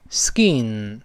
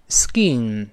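No difference in how they are said.

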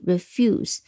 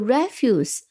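First: The stress is on the second syllable. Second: The stress is on the first syllable. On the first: To decline to do something. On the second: Waste material that is thrown away.

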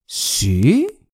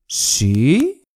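Both takes have the same delivery.

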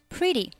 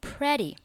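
First: The first vowel sounds like 'ih'. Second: The first vowel sounds like 'eh'. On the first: The speaker calls it right. "字母e 它对应的是短元音i，所以是读作pretty well" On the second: The speaker calls it wrong. "有不少同学呢会读成pretty"

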